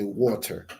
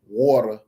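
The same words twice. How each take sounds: First: It is said with a British clear t. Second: It is said with an American flapped D-like t.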